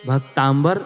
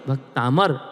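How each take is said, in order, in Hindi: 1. शब्द में 'm' के बाद 'b' की ध्वनि है। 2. शब्द में 'm' के बाद कोई 'b' की ध्वनि नहीं है। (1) "भक्तांबर नहीं" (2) "भक्तामर ऐसा बोलना चाहिए"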